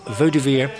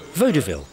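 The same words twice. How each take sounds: First: The word ends with a 'veer' sound. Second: The word ends with a 'veel' sound. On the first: It is the original French place name. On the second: It is the later garbled form of the name.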